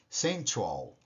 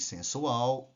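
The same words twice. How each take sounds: First: It is pronounced with English sounds. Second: It is pronounced with Portuguese sounds. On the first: "em inglês" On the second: "Em português"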